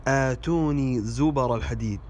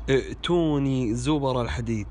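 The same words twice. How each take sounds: First: "آتوني" as aatuni; long aa start. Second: "ائتوني" as i'tuni; short hamza start. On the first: Teacher recites the corrected verse, "آتوني" said aatuni. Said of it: "والصحيح". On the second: Teacher shows a common mistake, "ائتوني" said i'tuni. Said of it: "وهذا خطأ". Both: Shown as a demonstration.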